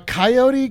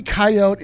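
First: "coyote" said ky-OH-tee; three-syllable coyote. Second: "coyote" said KY-oat; two-syllable coyote. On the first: Co-host comparing both sayings, "coyote" as ky-OH-tee. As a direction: sound the final ee in "coyote". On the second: Co-host comparing both sayings, "coyote" as KY-oat. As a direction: end "coyote" on the t, silent e. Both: Shown as a demonstration. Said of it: "It can be pronounced either way".

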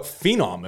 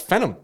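First: Phenom as FEE-nom, long ee; requested pronunciation. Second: Phenom as FEN-um, short first vowel; spelling pronunciation. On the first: Host conceding how others say it, Phenom as FEE-nom. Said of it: "how you want me to say it". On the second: Host defending the reading, Phenom as FEN-um. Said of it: "it's spelt Phenom". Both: Shown as a demonstration.

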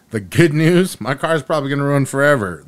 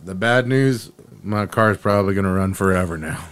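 First: Upbeat announcement, higher and louder; good news. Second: Mock-letdown delivery, dropping in pitch; bad news. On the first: Acted. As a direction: deliver it as happy news. Good news, bad news joke. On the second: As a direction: repeat it as mildly unwelcome news. Same words as bad news.

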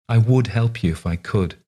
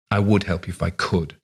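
First: Earnest, raised voice. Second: Cold. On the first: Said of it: "the old lady said earnestly". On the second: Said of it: "looked coldly at Margaret and said". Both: A narrator's reading.

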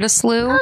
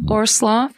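First: Slough said "sloo", rhyming with "through". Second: Slough said with an open "aw" vowel; slough as "slaw". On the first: Telling what a listener wrote in, slough as "sloo". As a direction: say slough with an "oo" vowel, no f. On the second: Giving the listener's river word both ways, slough as "slaw". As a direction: say slough like "slaw", not "sloo". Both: Shown as a demonstration. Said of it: "how it would be pronounced".

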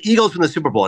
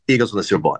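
First: Retold interviewer's question; quicker, lightly voiced host offering a choice; Howard Stern. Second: Low, matter-of-fact retold answer; lightly voiced star, lower and settled; Bradley Cooper. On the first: Radio host offering a movie star options, lightly imitated questioning. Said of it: "Howard Stern said". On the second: Die-hard fan answering the radio host, low and decided. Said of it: "And he goes".

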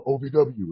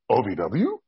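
First: Said in the usual way. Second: "O V W" rising as a question; questioning repeat. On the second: Retold or imitated. Rookie hearing where he's sent, questioning "O V W". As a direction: echo "O V W" back with a questioning lift.

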